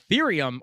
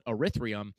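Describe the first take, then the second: First: It is said with a 'th' sound, Ethereum. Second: It is said with an 'r' sound, Erythrium. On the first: The speaker calls it right. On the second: The speaker calls it wrong.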